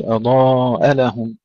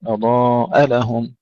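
First: أضاء لهم run together; imitating the mistake. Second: أضاء لهم slow, hamza pushed apart from لهم; correct recitation. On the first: Teacher showing the wrong joined reading. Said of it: "لا نقول". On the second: Teacher giving the right reading. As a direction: separate أضاء and لهم clearly. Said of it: "ندفع الهمزة". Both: Shown as a demonstration.

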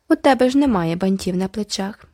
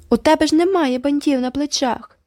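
First: Proud. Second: High squeaky mocking echo; squeaky mimicry. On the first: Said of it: "погордливо мовила Айві". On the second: Girl mocking a rival, squeaky high echo. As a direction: squeak it back to mock her. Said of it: "пропищала Джеральдіна". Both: A narrator's reading.

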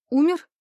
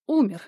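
First: Sharp, high, loud rising «Умер?»; shocked question. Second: Confirming. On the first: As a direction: ask «Умер?» in disbelief. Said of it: "Лайма так изумилась". (изумлённо, высоко и громко: «Умер?») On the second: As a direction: state «Умер» flatly, confirming. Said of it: "подтвердила толстуха". (подтверждающе, с падением: «Умер») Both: A narrator's reading.

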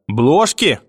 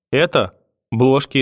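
First: БЛОЖКИ thrown back higher, in disbelief; indignant echo. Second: Small, hesitant answer; frightened. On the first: Grandmother repeats boy's word back, indignant disbelief. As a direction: pounce on the word with outrage. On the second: Boy admits the gift to grandmother, frightened. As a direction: answer timidly, a touch of fear. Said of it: "испуганно ответил я". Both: A narrator's reading.

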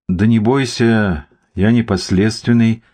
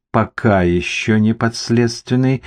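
First: Unhurried, mildly reassuring; encouraging. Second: Slow, ambiguous confirmation. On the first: Artyom calms nervous Mikhalych, encouraging. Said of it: "приободрил его Артём". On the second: Investigator qualifies Artyom's claim, with double meaning. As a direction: draw it out suggestively. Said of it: "двусмысленно подтвердил Зоркин". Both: A narrator's reading.

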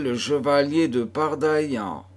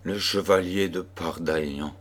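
First: Higher, lightly tender naming. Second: Lower, weighed-down murmur; despondent murmur. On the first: Daughter names the chevalier she loves, tenderly. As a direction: say the name with gentle affection. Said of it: "avec une telle tendresse". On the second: Mother repeats the chevalier's name, overwhelmed and murmuring. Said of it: "murmura-t-elle avec accablement". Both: A narrator's reading.

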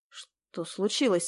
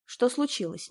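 First: Медленно, с тревогой в голосе; спроси, тревожась и не торопясь; встревоженно. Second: Said in the usual way. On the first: A narrator's reading. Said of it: "спросил встревоженно Никита". (Никита встревоженно спрашивает проводницу, медленно) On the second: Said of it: "Никита насторожился".

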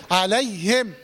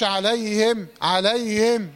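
First: Slow عليهم with a distinctly breathed ه; careful عليهم, ه clearly released; clear haa. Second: عليهم with its ه swallowed; mistakenly weak haa. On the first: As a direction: sound the ه in عليهم fully. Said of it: "وضح حرف الهاء". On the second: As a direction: slur over the ه in عليهم. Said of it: "تقولش". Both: Shown as a demonstration.

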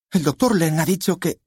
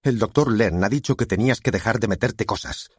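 First: High-pitched, urgent objection; frantic daughter, pitched way up; daughter's protest. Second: Restrained thunder, pitched up; stern father's angry retort. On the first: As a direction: object in a high voice, cut off midway. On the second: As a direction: scold with a slightly raised voice. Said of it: "con voz de trueno". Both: A narrator's reading.

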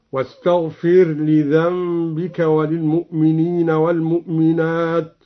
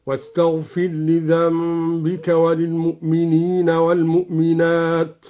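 First: The ر of واستغفر merged into the ل of لذنبك. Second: The ر of واستغفر sounded distinctly before لذنبك; r pronounced clearly. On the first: Teacher demonstrates idgham for students, ر merged into ل. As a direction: recite واستغفر لذنبك with the ر fully assimilated as one doubled lam. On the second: Teacher demonstrates izhar for students, ر kept clear. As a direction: recite واستغفر لذنبك keeping the ر audible, no merging. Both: Shown as a demonstration. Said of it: "بإدغام الراء وإظهارها هكذا".

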